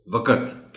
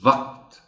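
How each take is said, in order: First: وقت broken into two syllables, wa-qat; common mispronunciation. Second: وقت in one syllable, waqt; correct pronunciation. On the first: Teacher quoting how many people say وقت, extra a before t. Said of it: "غلط تلفظ کے ساتھ بھی". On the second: Teacher correcting وقت, final q and t joined. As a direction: say وقت as WAQT, no vowel before t. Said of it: "وقت بتانا ہے". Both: Shown as a demonstration.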